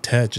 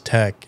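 First: The word ends with a ch sound. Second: The word ends with a k sound. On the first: The speaker calls it wrong. "I had just learned how to pronounce like the ch sound" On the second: The speaker calls it right. "it's tech"

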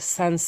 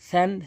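First: The first consonant is a hissing s. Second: The first consonant is a voiceless th sound. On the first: The speaker calls it wrong. "অধিকাংশ লোক ভুল করে বলে ... সিনের উচ্চারণ করে ফেলে" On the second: The speaker calls it right. "সা জিব্বার আগা দাঁতের আগার সঙ্গে"

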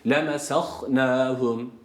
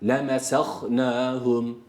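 Both takes have the same delivery.

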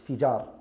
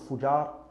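First: The first vowel is an i sound. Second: The first vowel is a u sound. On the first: The speaker calls it right. "but it's Fijar" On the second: The speaker calls it wrong. "not Fujar"

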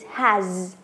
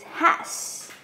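First: The word ends with a z sound. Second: The word ends with an s sound. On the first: The speaker calls it right. "Remember the z at the last of the has" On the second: The speaker calls it wrong. "Many people say it's has, but no"

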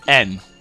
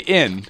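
First: The vowel is shifted toward a short e sound. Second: The vowel is a plain short i sound. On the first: "you go N" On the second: "if you want to say in"

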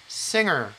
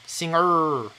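First: The stress is on the first syllable. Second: The stress is on the second syllable. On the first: The speaker calls it right. "앞에가 강조가 돼야 되는데" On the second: The speaker calls it wrong. "이걸 얼로 해버리면은 두 번째 게 강조가 돼 버려요"

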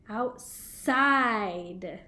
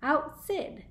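First: The last vowel is long, as in 'side'. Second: The last vowel is short, as in 'sid'. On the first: The silent E makes the vowel say its name. "so now it's making it say its name" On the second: The word has no silent E at the end. "If we didn't have this silent E here, it would sound like outsid"

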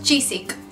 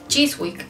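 First: The W in the middle is left silent. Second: The W in the middle is pronounced. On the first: This is how the locals say it. "¿Cómo le dicen ellos?" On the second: This is how a foreigner reads the spelling. "Ahí hay una W"

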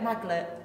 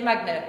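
First: The middle consonants sound like 'gl'. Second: The middle consonants sound like 'gn'. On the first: The speaker calls it wrong. "still wrong" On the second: The speaker calls it right. "Say it right"

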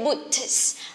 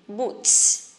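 First: The T is released separately before the S. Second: The T blends into a strong S sound. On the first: The speaker calls it wrong. "Don't say boots" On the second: The speaker calls it right. "When T and S go together, we just pronounce S strongly"

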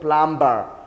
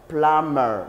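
First: The b sound is pronounced. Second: The b sound is silent. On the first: The speaker calls it wrong. "not plumber" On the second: The speaker calls it right. "This B is silent"

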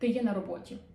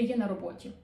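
First: It is said with statement intonation. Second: It is said with statement intonation.

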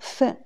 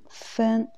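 First: The syllable is said with a sharply falling pitch. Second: The syllable is said on a high level pitch. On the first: It means component or ingredient. "c'est quatrième ton" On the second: It means minute or points. "quand c'est le premier ton"

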